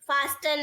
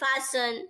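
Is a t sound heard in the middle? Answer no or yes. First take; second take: yes; no. First: A t sound is heard after the s. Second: No t sound is heard after the s. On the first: The speaker calls it wrong. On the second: The speaker calls it right.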